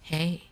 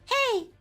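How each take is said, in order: First: It is said in a low-pitched voice. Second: It is said in a high-pitched voice. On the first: "with lower, you can go like" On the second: "higher basically goes like"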